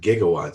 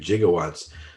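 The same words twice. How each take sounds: First: The word begins with a hard g sound. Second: The word begins with a soft j sound. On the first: This is how the word is said today. The speaker calls it right. "We pronounce it" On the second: This is how the word was said in an old film. The speaker calls it wrong. "he calls it gigawatts in the in the movie Back to the Future"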